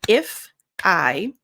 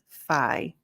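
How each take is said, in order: First: The two words are said separately. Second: The two words are linked into one. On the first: The speaker calls it wrong. "instead of" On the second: The speaker calls it right. "we connect it. So it's called linking"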